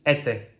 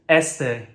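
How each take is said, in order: First: The s sound is dropped. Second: The s sound is pronounced.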